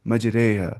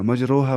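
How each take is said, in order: First: The vowel after r is tilted toward e. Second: The vowel after r sounds like a full o. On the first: The speaker calls it right. "Read as मजरेहा" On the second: The speaker calls it wrong. "मजरोहा मजरिया नहीं पढ़ना है"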